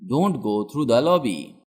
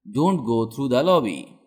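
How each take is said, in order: Both takes have the same delivery.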